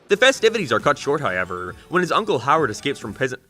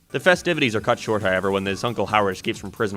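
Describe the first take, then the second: First: The voice sounds like a strained put-on voice. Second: The voice sounds like an ordinary natural voice. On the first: "Just to give my voice a rest for a second" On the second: "I'm doing this episode in my normal voice"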